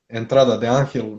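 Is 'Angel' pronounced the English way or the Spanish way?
Spanish. Angel is stressed on A with a Spanish G. The speaker calls it right. "I must appreciate how you say"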